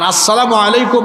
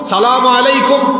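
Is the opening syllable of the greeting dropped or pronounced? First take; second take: pronounced; dropped. First: The greeting starts with its full opening syllable. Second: The greeting starts without its opening syllable. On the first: The speaker calls it right. "শুদ্ধ সালামটা হলো আসসালামু" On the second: The speaker calls it wrong. "এইরকম হাবি জাবি সালাম"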